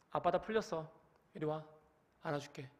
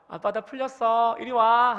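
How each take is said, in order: First: Soft, cold words with anger still under them, much softer; forgiving words, angry tone. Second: Bright, open call, louder and higher; a practiced, wholehearted welcome; truly forgiving. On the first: Father still angry, offering a hug to his crying child, cold and quiet. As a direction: say you forgive while still fuming. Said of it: "내 표정과 내 모든 상태는 분노가 아직 안 풀렸음을". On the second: Father after practicing in the bathroom, warmly calling his child. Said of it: "화장실에 들어가서 엄청 연습했어요". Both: Shown as a demonstration.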